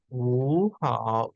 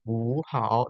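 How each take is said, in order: First: "wu hao" with "wu" rising in second tone; slow rising "wu" in "wu hao"; correct tone demo. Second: "wu hao" with both syllables in dipping third tone; slow dipping "wu hao"; wrong tone demo. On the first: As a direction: show the fix: "wu" climbs up, "hao" dips. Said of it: "lebih naik gitu nadanya". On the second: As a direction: show the mistake: "wu hao" dipped twice. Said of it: "jangan bacanya ini juga nada tiga". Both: Shown as a demonstration.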